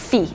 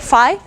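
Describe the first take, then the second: First: Phi is said with the British pronunciation. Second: Phi is said the common fraternity-name way. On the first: The name mathematicians use for the letter. "mathematicians have adopted the British pronunciation, which is phi" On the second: The name used for the letter in fraternity names. "often when you use this letter in, in like sorority or fraternity names, you call it phi"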